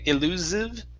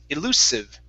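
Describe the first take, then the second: First: The S is pronounced as a voiced sound. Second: The S is pronounced as an unvoiced sound. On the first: The speaker calls it wrong. "here you pronounce the S as a voiced S" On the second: The speaker calls it right. "instead of a voiced S, it's an unvoiced S"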